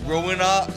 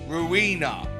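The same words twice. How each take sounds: First: The name starts like the word 'ruin'. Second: The name does not start like 'ruin'. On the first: The speaker calls it right. "it's actually pronounced Ruina, like ruin" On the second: The speaker calls it wrong. "I've been saying Ruina wrong this entire time"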